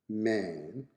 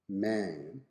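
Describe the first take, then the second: Both takes have the same delivery.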